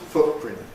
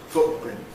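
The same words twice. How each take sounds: First: A glottal stop replaces the t. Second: The same.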